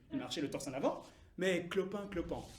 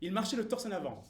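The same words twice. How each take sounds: First: Lower, softer, deflated correction; subdued, halting retelling; hobbling veterans. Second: Proud bearing. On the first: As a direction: lose the swagger and limp through the words. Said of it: "la plupart étaient estropiés ou boiteux". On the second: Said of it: "avec une prestance". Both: Acted.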